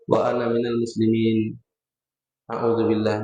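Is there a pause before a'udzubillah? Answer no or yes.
yes. A short pause separates the two phrases. The speaker calls it right. "Diam sejenak. Satu sunnah lagi kita dapat"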